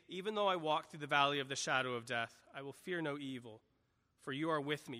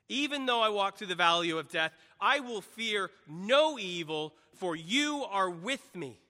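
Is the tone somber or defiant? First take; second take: somber; defiant. First: It is read in a somber, subdued tone. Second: It is read as a defiant battle cry.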